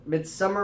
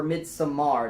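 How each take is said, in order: First: "Midsommar" with a reduced English -er ending; Anglicized pronunciation. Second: "Midsommar" with a full, open -ar ending; foreign-style pronunciation. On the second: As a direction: say Midsommar as mid-so-MAR. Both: Shown as a demonstration. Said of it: "depending on how you want to say it".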